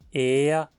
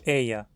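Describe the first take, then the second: First: The vowel is a single plain vowel. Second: The vowel glides like a diphthong. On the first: "como uma vogal só" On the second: "ou como um ditongo"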